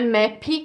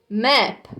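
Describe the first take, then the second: First: An extra i vowel follows the final p. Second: The word stops sharply on the final p. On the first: The speaker calls it wrong. "Não coloca um som de I no final, não é map" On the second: The speaker calls it right. "é o som do P, para no P"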